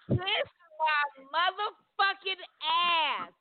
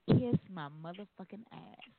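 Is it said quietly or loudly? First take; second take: loudly; quietly. First: It is said at a louder volume. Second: It is said at a quieter volume.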